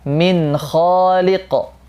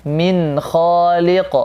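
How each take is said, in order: Both takes have the same delivery.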